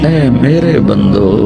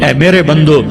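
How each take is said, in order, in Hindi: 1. कॉल गर्म, नरम और प्यार भरा लगता है। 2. कॉल ठंडा और सपाट लगता है, उसमें गर्मजोशी नहीं। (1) "क्या प्यार है, क्या मिठास है" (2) "इस लहजे में नहीं"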